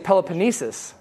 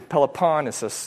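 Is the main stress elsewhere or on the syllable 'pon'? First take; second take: elsewhere; on pon. First: The main stress is not on 'pon'. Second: The main stress is on 'pon'. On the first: The speaker calls it wrong. "I used to say Peloponnesus" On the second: The speaker calls it right. "Everyone puts the emphasis on the pon. So I'm trying to"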